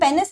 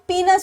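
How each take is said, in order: First: The first syllable sounds like 'pen'. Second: The first syllable sounds like 'pee'. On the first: The speaker calls it wrong. "इसे हम पेनिस नहीं बोलते" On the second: The speaker calls it right. "इसका correct pronunciation is पीनस"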